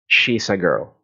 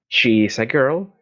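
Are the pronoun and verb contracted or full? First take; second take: contracted; full. First: She is is joined into one short word. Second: She is is said as two full words.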